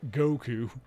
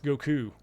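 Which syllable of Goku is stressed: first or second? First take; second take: first; second. First: The stress is on the first syllable. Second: The stress is on the second syllable. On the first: The speaker calls it wrong. "It's not Goku" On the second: The speaker calls it right. "there's more emphasis on the second syllable"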